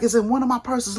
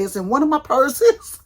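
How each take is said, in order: First: Said in the usual way. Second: Loud, high and rising, flustered. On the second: Retold or imitated. Answering husband on the phone, loud flustered rise. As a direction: blurt it out in a rush of panic.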